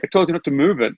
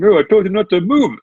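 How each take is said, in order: First: High-pitched mock telling-off, own accent; retold telling-off. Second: High, louder attempt at a classic New York accent; mock New York accent, pitched up. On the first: Butcher scolding a customer retold, mildly indignant in own accent. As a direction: insist like an annoyed butcher, no put-on accent. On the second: Butcher telling off a customer in line, mock New York accent. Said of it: "in the classic New York accent".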